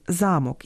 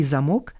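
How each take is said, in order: First: ЗА́мок, opening syllable stressed; stress on first syllable. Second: ЗамО́К, final syllable stressed; stress on last syllable. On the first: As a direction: say замок stressing ЗА. (наголос на першому складі: за́мок) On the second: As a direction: say замок stressing МОК. (наголос на другому складі: замо́к) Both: Shown as a demonstration. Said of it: "а от наголошуємо по-різному".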